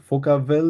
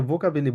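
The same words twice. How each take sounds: First: ফোকাবেল slowly, with a hard f at the start; wrong version. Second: ভোকাবেলই with a v-like start; correct version. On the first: Teacher showing students the mistaken form, slow. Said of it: "ফোকাবেল না". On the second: Teacher correcting a student's question, clear v. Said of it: "এটাকে ভোকাবেলই বলে". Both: Shown as a demonstration.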